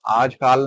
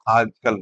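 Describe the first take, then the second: First: The last vowel is long. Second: The last vowel is short. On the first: The speaker calls it wrong. "आजकाल नहीं होता है" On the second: The speaker calls it right. "आजकल होता है"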